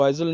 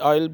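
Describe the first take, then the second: First: A z sound comes before the l. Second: No z sound comes before the l. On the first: The speaker calls it wrong. "इसको आइजल नहीं" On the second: The speaker calls it right. "आयल बोलते हैं"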